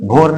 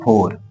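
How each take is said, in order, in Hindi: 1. इस शब्द की शुरुआत एक voiced bh ध्वनि से होती है। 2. इस शब्द की शुरुआत f ध्वनि से होती है। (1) "भोर नहीं"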